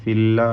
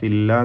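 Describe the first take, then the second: No difference in how they are said.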